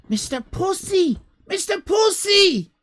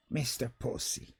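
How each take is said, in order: First: Higher and louder, like a compere; bill the act with a big shout; announcer shout. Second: Much softer and lower; quiet savouring of the name; hushed aside. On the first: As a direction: showman calling out the name. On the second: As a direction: drop to a murmured aside. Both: Pretend. Repeating the name.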